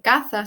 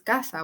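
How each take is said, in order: First: The middle consonant is a th sound. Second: The middle consonant is an s sound. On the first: The speaker calls it wrong. "no se dice caza" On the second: The speaker calls it right. "simplemente dices caza"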